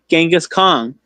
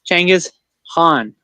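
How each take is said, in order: First: The first name is said the common English way. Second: The first name is said as Changiz. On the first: "I just said it" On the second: "it's actually pronounced Changiz"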